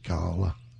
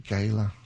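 First: It is said with an English accent. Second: It is said with an American accent.

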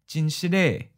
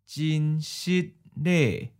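First: It is said at a natural speed. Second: It is said slowly and carefully. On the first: "Once natural speed" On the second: "and then slow"

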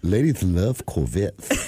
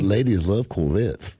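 First: It is said with a slur. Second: It is said clearly, without a slur.

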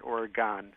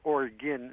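First: The final syllable sounds like the end of argon. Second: The final syllable does not sound like argon's. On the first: The speaker calls it wrong. "not Oregon" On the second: The speaker calls it right. "Oregon is said Oregon"

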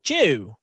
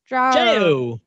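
First: The name is said in a British accent. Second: The name is said in an Australian accent. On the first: "if you're a British person, you're going to pronounce it" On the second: "And if you're Australian, you'll be"

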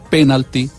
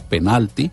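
First: The stress is on the first syllable. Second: The stress is on the second syllable. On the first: "esdrújula, con tilde en la E" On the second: "palabra grave con el acento en la sílaba intermedia"

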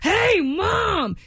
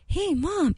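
First: It is said loudly, almost shouted. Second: It is said at a quiet, normal volume.

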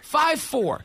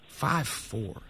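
First: It is said in an excited, exclaiming tone. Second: It is said in a sympathetic, pitying tone.

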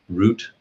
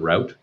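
First: It is said the local, non-American way. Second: It is said the American way. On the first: This is the local way the newcomer is learning. "are you now learning to pronounce the word route" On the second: This is the way the newcomer brought from home. "instead of route"

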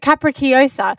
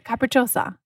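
First: It is said with confident, exaggerated Italian flair. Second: It is said plainly, without exaggerated Italian flair.

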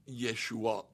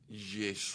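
First: It ends with a vowel and glottal stop. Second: It ends without the vowel and glottal stop. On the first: "a Galilean would not say Yeshua" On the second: "They'd drop that final glottal stop and the vowel right before it"

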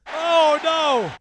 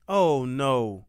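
First: It is said in an upbeat, excited way. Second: It is said in a downcast, low way.

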